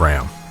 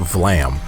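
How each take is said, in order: First: The name begins with an R sound. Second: The name begins with a V sound. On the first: This is how the show pronounces the name. The speaker calls it right. "that's how they're pronouncing it" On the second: This was the name as first assumed. The speaker calls it wrong. "It's not Vlam, which we thought was that was his name originally"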